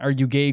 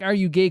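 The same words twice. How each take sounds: First: It sounds mocking and contemptuous. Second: It sounds happy and celebratory.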